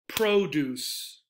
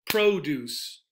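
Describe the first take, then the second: First: The stress is on the first syllable. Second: The same.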